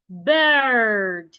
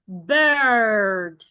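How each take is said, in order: The two takes are said the same way.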